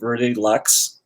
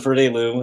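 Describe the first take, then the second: First: The name ends with a 'ks' sound. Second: The name ends with an 'oo' sound. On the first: This is how unfamiliar people say it. The speaker calls it wrong. "a lot of people are still saying" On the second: This is how people who know the brand say it. The speaker calls it right. "when everyone says Verde Lou in two years, we'll have made it"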